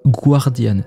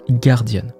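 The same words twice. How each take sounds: First: The word is said with a French-style pronunciation. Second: The word is said with an English pronunciation. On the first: The speaker calls it wrong. "ça ne se prononce pas guardian" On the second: The speaker calls it right. "ça se prononce guardian"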